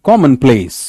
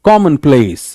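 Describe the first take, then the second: No difference in how they are said.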